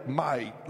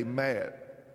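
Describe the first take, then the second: First: Said in the usual way. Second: "Matt" for might, with a short flat a as in cat; "Matt", the long i turned into a short a; East Tennessee pronunciation. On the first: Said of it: "they don't say li". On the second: Shown as a demonstration. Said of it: "They say".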